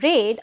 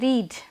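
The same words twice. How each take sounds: First: The vowel is short, as in 'bed'. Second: The vowel is long, as in 'need'. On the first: The action is in the past. The speaker calls it right. "because that is past action" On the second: The action is in the present. The speaker calls it wrong. "don't say read"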